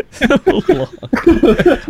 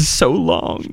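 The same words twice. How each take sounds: First: "So long" squeaked very high through a laugh; squeaky laughing sign-off. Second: Said in the usual way. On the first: Shown as a demonstration. Host giggling a goodbye to listeners, squeaky high. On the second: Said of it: "laughs So long".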